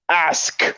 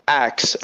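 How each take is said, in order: First: The s sound comes before the k sound. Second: The k sound comes before the s sound. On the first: This is the form that takes conscious effort for West African speakers. "have to consciously be aware and say ask" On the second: This is the form that flows easily for West African speakers. "it actually should be um, axe"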